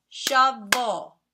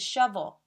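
First: "Shovel" in two loud, distinct beats; "Shovel" split in two for clapping; syllable by syllable. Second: Said in the usual way. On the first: Shown as a demonstration. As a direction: count out "Shovel" one syllable at a time. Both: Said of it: "let's now see how many syllables".

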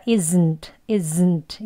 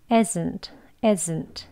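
First: Isn't with a heavy, buzzed z; wrong take, isn't with a forceful z; overstrong Z. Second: Isn't with a soft, lightly voiced z; isn't, easy and unforced on the z; weak Z. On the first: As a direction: push the voiced z in isn't too hard. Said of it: "이렇게 하진 않습니다". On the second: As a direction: let the z in isn't stay weak. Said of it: "끝에서 끝날 때 약하게". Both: Shown as a demonstration.

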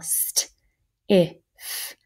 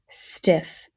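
First: St, if as separate drawn-out sounds; sounded out. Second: Said in the usual way. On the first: Shown as a demonstration. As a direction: sound out st, then if, pausing between. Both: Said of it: "let's fingerspell".

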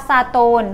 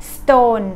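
First: "stone" broken into two syllables, sa-tone; wrong extra vowel. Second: "stone" as one syllable, hissed s straight into t; correct S cluster. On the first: Teacher showing learners the mistake, "stone" as sa-tone. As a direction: put an "a" between s and t in "stone". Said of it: "ไม่มีคำว่า". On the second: Teacher giving the correct form, one-syllable "stone". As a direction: run the s into "tone" with no vowel between. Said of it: "มีแต่". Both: Shown as a demonstration.

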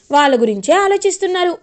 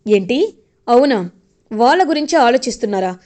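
First: Said in the usual way. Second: Sarcastic retort. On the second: Retold or imitated. Manohari scoffing at Chemba about the kids, sarcastic. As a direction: drag it out like you don't believe a word.

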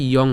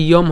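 First: "ইয়ং" ending in a nasal ng; "ইয়ং" closed at the back of the mouth; correct ending NG. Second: "ইয়ম" ending in m; "ইয়ম" with m in place of ng; wrong ending M. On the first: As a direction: say "ইয়ং" with ng, lips open at the end. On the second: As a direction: close the lips on the last sound of "ইয়ম". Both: Shown as a demonstration. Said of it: "এটা ইয়ম হবে না".

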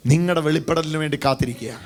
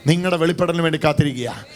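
The two takes are said the same way.

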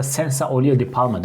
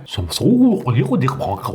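First: Senza olio di palma in a light Italian lilt; Italian accent. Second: Senza olio di palma with a light French lilt; French accent. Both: Shown as a demonstration. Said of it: "onların okunuşları farklı".

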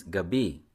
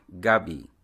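First: Gabi with stress on BI; second-syllable stress. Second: Gabi with stress on GA; first-syllable stress. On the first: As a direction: lean on the last syllable of gabi. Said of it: "stressed on the second syllable". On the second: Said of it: "stress on the first syllable". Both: Shown as a demonstration.

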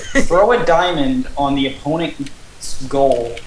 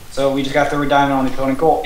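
First: Slow, deliberate rule read; reading rules aloud. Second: Said in the usual way. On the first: Real, not acted. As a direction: read it out slowly, word by word. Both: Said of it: "while I read the rules".

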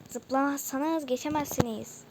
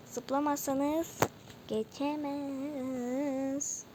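First: Said in the usual way. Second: Slow, higher, long-stretched syllables; drawn-out warning. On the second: Shown as a demonstration. (uzata uzata uyarı)

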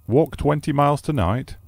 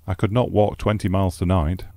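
First: Much higher, astonished "Walk twenty miles tonight?"; incredulous repeat. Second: Said in the usual way. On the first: Acted. Host repeating the guest's plan in astonishment. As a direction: throw the words back in disbelief. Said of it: "repeated my host".

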